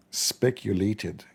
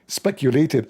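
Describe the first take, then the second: First: "Speculated" said very slowly and softer, each syllable drawn out; savoring the word. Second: Said in the usual way. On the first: Shown as a demonstration. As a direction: let "Speculated" roll out slowly like a movie title. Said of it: "This word alone is a movie". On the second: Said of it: "I like this word".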